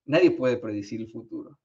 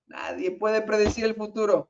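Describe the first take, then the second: First: Said in the usual way. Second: "Nadie puede predecir el futuro" pitched high, stressing "predecir"; emphatic repeat. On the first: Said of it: "repeats it, pitched up". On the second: Shown as a demonstration. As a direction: hammer home "predecir" the second time. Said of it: "repeated with emphasis". (repetición enfática, subiendo el tono en "predecir")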